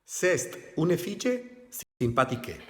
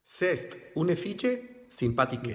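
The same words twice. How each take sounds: First: Fille said fitches, sympathique said s impatike; even worse French pronunciation. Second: Spanish-accented French, fille said fitche; clumsy learner reading of sympathique; bad French pronunciation. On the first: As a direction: butcher the French even more. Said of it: "No se puede pronunciar peor". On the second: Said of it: "Da vergüenza ajena". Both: Shown as a demonstration.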